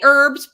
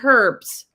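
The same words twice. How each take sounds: First: The word is said in the speaker's own accent. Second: The word is said in a British accent. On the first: This is how the speaker says it. "I say herbs" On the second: This is how people in the UK say it. "my friends in the U K say herbs"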